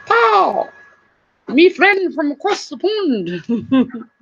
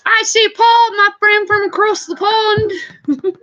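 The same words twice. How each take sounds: First: Slow, playful imitation of a British accent; a friendly British accent, drawn out; mock British accent. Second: Said in the usual way. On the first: Greeting her friend from across the pond in a mock British accent. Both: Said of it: "He's got such a cool accent".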